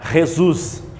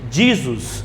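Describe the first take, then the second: First: The name is pronounced the Spanish way. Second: The name is pronounced the English way. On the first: "do espanhol" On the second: "Do inglês"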